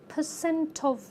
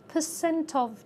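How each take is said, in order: Both takes have the same delivery.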